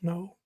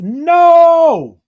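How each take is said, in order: First: The word is said timidly, with a cringe. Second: The word is said boldly, with full force. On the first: The refusal feels uncomfortable and guilty. "I cringed" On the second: The refusal is firm and without guilt. "I said it with my full chest"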